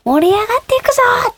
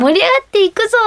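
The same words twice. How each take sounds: First: High, bright rallying call to a crowd; concert hype shout. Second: High, bright rallying call; concert hype shout. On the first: Idol hyping the live crowd, raised high shout. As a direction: rouse tens of thousands of fans from the stage. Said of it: "何万人もの方に". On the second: Idol quoting her usual stage call, raised high. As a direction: show the line she can say. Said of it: "は言えるんです". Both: Retold or imitated.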